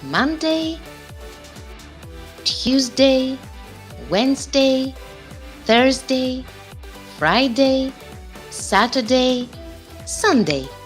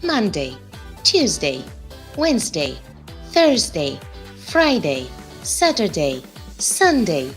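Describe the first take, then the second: First: The days are said slowly. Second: The days are said very fast.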